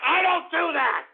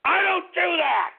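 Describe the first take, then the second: First: High, emphatic protest; indignant outburst. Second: High, outraged repeat falling at the end; indignant outburst. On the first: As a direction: yell the denial in outrage. Host angrily denies after calmer rant. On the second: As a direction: cry out the denial in outrage. Host repeats the outraged denial. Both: Real, not acted.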